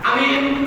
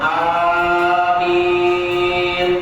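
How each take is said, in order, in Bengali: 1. শব্দটা ছোট আর দ্রুত বলা হয়। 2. শব্দটা টেনে লম্বা করে বলা হয়। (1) "এটা রাসূলের সুন্নাত অনুযায়ী হয়নি" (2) "সব দীর্ঘ হবে লম্বা হবে"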